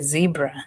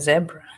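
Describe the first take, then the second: First: It is said the American way, starting 'zee'. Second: It is said the Kenyan way, starting 'zeh'.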